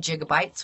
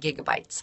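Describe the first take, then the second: First: The word begins with a soft j-like sound. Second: The word begins with a hard g sound. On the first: The speaker calls it wrong. "we don't say gigabytes" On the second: The speaker calls it right. "we say gigabytes"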